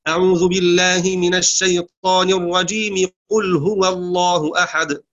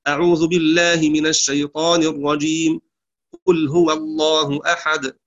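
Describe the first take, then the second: First: الرجيم runs straight into قل with no pause. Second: There is a pause after الرجيم before قل. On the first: "وصلها بأول السورة" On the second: "قطعها عن أول السورة"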